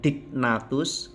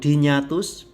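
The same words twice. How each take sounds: First: The middle consonants sound like separate 'g' and 'n'. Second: The middle consonants sound like 'ny'. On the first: The speaker calls it wrong. "bukan dignatus" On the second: The speaker calls it right. "G N dibaca N Y seperti nyanyi"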